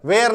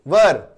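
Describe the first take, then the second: First: "वेयर" with a long vay-er sound; mispronounced were, "वेयर" like where; wrong pronunciation. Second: "वर" with a short neutral vowel, vur; English were pronounced "वर"; correct pronunciation. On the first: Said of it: "वेयर गलत हो जाएगा". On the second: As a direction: say were as "वर", like वर वधु. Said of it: "वर, वेयर नहीं बोलो". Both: Shown as a demonstration.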